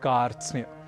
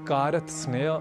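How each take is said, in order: First: All five consonants are joined without vowels. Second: Extra vowels split the cluster into parts. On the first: The speaker calls it right. "हमें कहना है" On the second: The speaker calls it wrong. "आदि न कहकर"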